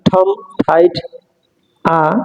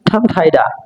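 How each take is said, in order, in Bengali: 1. শেষ ব্যঞ্জনটি স্বর থেকে আলাদা থাকে। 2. শেষ ব্যঞ্জনটি স্বরের সঙ্গে যুক্ত হয়ে যায়। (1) "যদি আমি আলাদাভাবে বলি" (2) "একসঙ্গে বলি ... লাগাই দিয়ে বলতে হবে"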